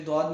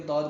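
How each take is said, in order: First: ضاد as Urdu "dwaad"; wrong ضاد. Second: ضاد as rounded "dawd", no W glide; correct ضاد. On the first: Teacher shows what to avoid, ضاد as "dwaad". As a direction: say ضاد with a W glide after D. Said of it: "اسے بھی ضاد نہیں پڑھنا". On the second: Teacher corrects the reading, ضاد without the glide. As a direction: say ضاد full and heavy, without W. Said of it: "بلکہ ضاد پڑھنا ہے". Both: Shown as a demonstration.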